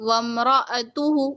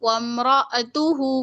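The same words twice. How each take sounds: Both takes have the same delivery.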